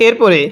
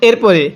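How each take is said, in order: The two takes are said the same way.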